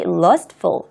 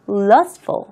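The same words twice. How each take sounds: First: The middle t sound is clearly pronounced. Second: The middle t sound is barely heard. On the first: "좀 더 정확하게 발음을 하는" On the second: "트 발음이 명확하게 나지 않습니다"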